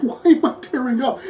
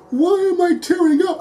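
First: The question repeated through a laugh; laughing, self-mocking repeat; laughing at herself. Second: Pitched way up in disbelief; high, choked-up incredulity; baffled tearful question. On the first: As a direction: giggle it out, amused at your own tears. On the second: Retold or imitated. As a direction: ask it like you can't believe you're welling up. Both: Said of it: "And I'm like".

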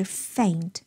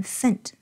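First: "faint" with a full, drawn-out ay glide; correct faint. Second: "faint" with its glide cut to a short e; wrong vowel in faint. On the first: Teacher corrects learners' vowel, "faint" said slowly with full ay. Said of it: "而是faint". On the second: Teacher shows learners the word to avoid, "faint" mispronounced as "fent". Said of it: "不要念faint". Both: Shown as a demonstration.

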